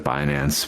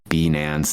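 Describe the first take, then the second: First: The name is pronounced in the familiar way. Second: The name is pronounced in an unfamiliar way. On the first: This is how it is normally said. The speaker calls it right. "instead of Binance" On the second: This is how someone else said it. The speaker calls it wrong. "mispronouncing names and saying like Binance"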